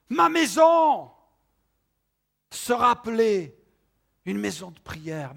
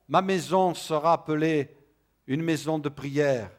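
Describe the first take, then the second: First: It is read with strong emotional emphasis. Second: It is read plainly with flat intonation. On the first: It is as if the Lord's heart were speaking. "on peut entendre Jésus dire, ma maison" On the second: It is simply reported speech. "tout simplement, Jésus a parlé sur ce ton"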